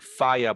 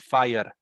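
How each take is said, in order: First: The R sound is soft and weak. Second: The R sound is strong, like Spanish. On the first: "they wouldn't say fire or fire" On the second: "they would pronounce the R very strong, like the way we do it in Spanish"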